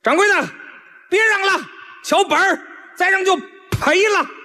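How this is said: It is pitched somewhat low.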